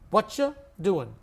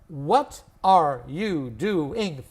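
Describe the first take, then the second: First: The word 'are' is left out entirely. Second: All five syllables are said, including 'are'. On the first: "We lose one syllable" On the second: "Five syllables"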